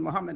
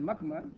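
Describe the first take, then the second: First: The name is said as Muhammad. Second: The name is said as Muckmud. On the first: This is the proper form of the name. The speaker calls it right. "that is supposed to be called Muhammad" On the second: This is a garbled form of the name. The speaker calls it wrong. "pronouncing Muhammad Muckmud"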